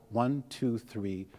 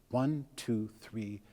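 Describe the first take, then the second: The two takes are said the same way.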